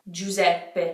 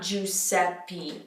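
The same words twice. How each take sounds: First: The middle consonant is a Z sound. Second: The middle consonant is an S sound. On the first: The speaker calls it right. "Pretend it's a Z" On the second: The speaker calls it wrong. "not Giuseppe"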